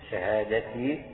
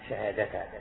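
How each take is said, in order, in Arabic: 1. تنتهي الكلمة بالصوت i. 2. تنتهي الكلمة بالصوت a. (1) "شهادتي تكون مكسورة" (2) "تنصبها على تقدير فعل محذوف"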